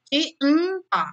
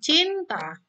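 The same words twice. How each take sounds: First: A sound in the word is held longer. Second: The word is said plainly in two syllables. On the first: "tapi mungkin ada pakai ditahannya cinta" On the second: "dua kali, dua silabel, dua kali cinta"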